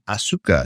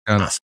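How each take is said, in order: First: The vowel after the s is pronounced. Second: The vowel after the s is dropped. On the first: The speaker calls it wrong. "is not Asuka" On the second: The speaker calls it right. "She's Asuka"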